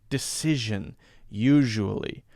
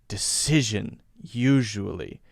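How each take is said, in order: Both takes have the same delivery.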